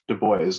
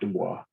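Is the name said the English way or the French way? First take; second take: English; French. First: The name is given an English pronunciation. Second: The name is given a French pronunciation. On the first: This is the name as its owner wanted it. The speaker calls it right. "his name was pronounced Du Bois" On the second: This follows the French colonial pronunciation. The speaker calls it wrong. "not Dubois"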